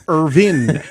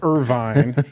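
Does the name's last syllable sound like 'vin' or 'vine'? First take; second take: vin; vine. First: The last syllable rhymes with 'pin'. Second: The last syllable rhymes with 'pine'. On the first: The speaker calls it right. "It's Mark Irvin" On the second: The speaker calls it wrong. "not Irvine"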